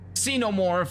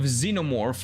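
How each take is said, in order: First: The word begins with a ks sound. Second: The word begins with a z sound. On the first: The speaker calls it right. "an X in the beginning sound" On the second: The speaker calls it wrong. "the stupid Z sound for no reason"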